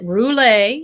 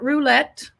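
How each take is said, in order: First: The word has a French-style pronunciation. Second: The word has a plain English pronunciation. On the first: "She's going with that French pronunciation" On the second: "It is not roulette"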